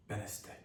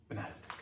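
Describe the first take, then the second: First: Barely voiced "Benastic", stressed on BEN; stress on first syllable. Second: Barely voiced "Benastic", stressed on NAS; stress on second syllable. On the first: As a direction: murmur "Benastic" as BEN-uh-stic. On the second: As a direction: murmur "Benastic" as buh-NAS-tic. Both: Shown as a demonstration. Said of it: "I don't know if it's Benastic or Benastic".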